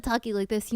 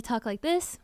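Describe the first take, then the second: First: Nasal demo voice. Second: Open, un-nasal demo voice; open throat. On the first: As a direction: talk through the nose. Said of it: "if you're sounding nasally". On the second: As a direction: talk with nose and throat open. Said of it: "keep your nose and your throat open". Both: Shown as a demonstration.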